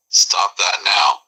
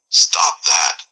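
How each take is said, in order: First: Very slow stop that now; irritated. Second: Hissed stop that; curt whispered order; irritated. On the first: Brain-fried man repeating his order, very slow. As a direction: drag out now, final warning. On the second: Brain-fried man ordering in a hiss. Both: Acted. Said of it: "on the verge of shutting down".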